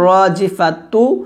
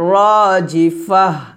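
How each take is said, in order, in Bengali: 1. শব্দটি একটি পূর্ণ 'tu' ধ্বনি দিয়ে শেষ হয়। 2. শব্দটি একটি হালকা 'h' ধ্বনি দিয়ে শেষ হয়। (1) "এখানে আছে রাজিফাতু" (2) "ওয়াকফ দিলে হবে রাজিফাহ"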